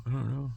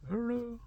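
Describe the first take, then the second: First: Said in the usual way. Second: Pitched way up, a comic squeak; squeaky high shrug. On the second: Shown as a demonstration. Asking himself about heaven, squeaky high shrug.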